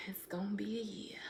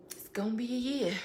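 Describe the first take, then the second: First: Whispered aside. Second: Said in the usual way. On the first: Real, not acted. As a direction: whisper "It's gonna be a year." to yourself. Repeats the line, second one whispered.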